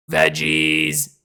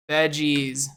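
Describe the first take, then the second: First: "Veggies." much lower and louder; silly low voice. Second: Said in the usual way. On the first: Shown as a demonstration. Streamer repeats the tier list title in a goofy, much lower voice. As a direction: drop "Veggies." down deep like a goofy character.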